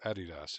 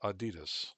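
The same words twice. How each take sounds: First: The name is said the foreign way. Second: The name is said the usual local way.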